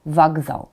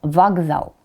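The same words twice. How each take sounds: The two takes are said the same way.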